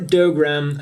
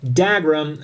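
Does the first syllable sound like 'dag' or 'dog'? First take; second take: dog; dag. First: The first syllable sounds like 'dog'. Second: The first syllable sounds like 'dag'. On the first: This is how the written name suggests it. "as you would think when you just look at the written name" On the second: This is how the show says it. "as they do in the series"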